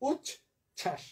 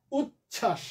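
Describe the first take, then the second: First: উচ্ছ্বাস softly broken into উচ, pause, ছাস; syllable by syllable. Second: Said in the usual way. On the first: Shown as a demonstration. Teacher repeating the example for students, syllable by syllable. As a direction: say উচ্ছ্বাস as two separate, softer syllables. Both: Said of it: "একইভাবে".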